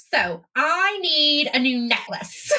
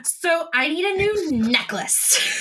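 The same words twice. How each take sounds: First: Put-on slow, drawn-out Valley Girl. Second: Drawn-out, lightly put-on character voice; slow attempt at Adrena's voice, not quite right; mistaken princess voice. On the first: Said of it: "adding a Valley Girl voice to it". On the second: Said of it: "That was not how your voice sounded".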